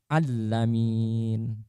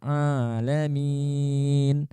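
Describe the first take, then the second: First: The consonant after the first a is doubled. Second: The first a is held long for two beats. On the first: The speaker calls it wrong. "langsung diberikan tasydid" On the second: The speaker calls it right. "dibaca panjang dua harokat"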